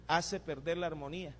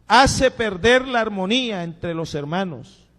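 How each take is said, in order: First: Quiet repeat. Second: Louder and higher, slow and emphatic; loud preaching. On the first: Pastor repeats the warning to the church, softly. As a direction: let it sink in quietly. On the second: Pastor warns brothers about discord, loud and emphatic. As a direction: proclaim it to the back row. Loud first take of the line. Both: Acted.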